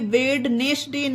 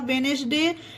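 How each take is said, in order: First: A d sound is pronounced before the n. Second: No d sound is pronounced before the n. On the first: The speaker calls it wrong. "ये वेडनेसडे नहीं होगा" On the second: The speaker calls it right. "ये होगा वेनसडे"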